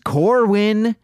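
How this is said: The name is said in a Chicago accent.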